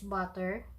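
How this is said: It is said with an English pronunciation. "Kung sa English is butter"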